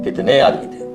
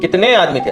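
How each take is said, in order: First: It is said in a low pitch. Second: It is said in a higher pitch.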